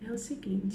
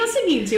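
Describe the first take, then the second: First: It is said in a slow, sleepy monotone. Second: It is said loudly, almost shouting, and fast.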